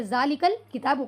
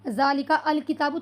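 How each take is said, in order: First: "ज़ालिकल किताबु" linked, running straight from 'ka' into the 'l'; alif silent, words joined. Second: "ज़ालिका अल किताबु" unjoined, each word separate with the 'a' of अल voiced; alif sounded separately. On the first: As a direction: join it as "ज़ालिकल" with no separate 'a', then "किताबु". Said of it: "तो यहाँ पर इसका sound नहीं आएगा". ("ज़ालिकल किताबु" मिलाकर, अलिफ की आवाज़ के बिना) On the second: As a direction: say "ज़ालिका", then a distinct "अल किताबु". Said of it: "ऐसा तो नहीं कहा इसमें". ("ज़ालिका अल किताबु" में अल के अलिफ की आवाज़ अलग से निकालकर)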